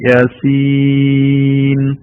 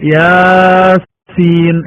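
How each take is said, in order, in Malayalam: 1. രണ്ടാമത്തെ അക്ഷരം വളരെ കൂടുതൽ നീട്ടിപ്പിടിക്കുന്നു. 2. ആദ്യത്തെ അക്ഷരം വളരെ കൂടുതൽ നീട്ടിപ്പിടിക്കുന്നു. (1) "നല്ല ഭംഗിയായി യാസീൻ ഇങ്ങനെയാണ് അത് ഓതേണ്ടത്" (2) "പൊതുവെ യാസീൻ എന്നൊരു വായനയുണ്ട്"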